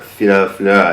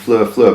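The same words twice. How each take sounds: First: The name is said with Japanese-style syllables. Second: The name is said with English-style sounds. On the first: "It's like in the hiragana, katakana way" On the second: "I keep on calling them Fleur Fleur"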